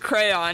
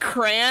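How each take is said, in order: First: The middle y sound is pronounced. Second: The middle y sound is dropped. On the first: The speaker calls it right. "there's a Y!" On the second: The speaker calls it wrong. "It's like saying crayon"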